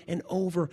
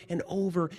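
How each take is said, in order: Both takes have the same delivery.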